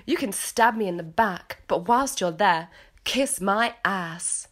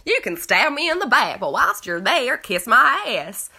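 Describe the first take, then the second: First: Put-on English accent; British accent. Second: Hammed-up Southern US accent, louder at the end. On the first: Host redoing Lisa's tagline to make it rhyme, British accent. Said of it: "if you say it British". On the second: Host mocking Lisa's tagline in a hammed-up Southern accent. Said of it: "who would have a Southern accent".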